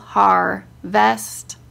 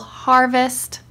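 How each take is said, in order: First: It is said slowly, syllable by syllable. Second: It is said whole, at normal speed.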